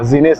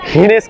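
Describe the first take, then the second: First: The name begins with a G sound. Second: The name begins with an H sound. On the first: The speaker calls it wrong. "नहीं" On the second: The speaker calls it right. "कहो, जी को यहाँ पे एच pronounce करते हैं"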